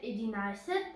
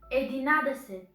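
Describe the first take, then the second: First: The middle is the short 'nai' sound. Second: The middle is the full 'nade' sound. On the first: This is how people say it in speech. "We say it" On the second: This is how it is written. "but we write it"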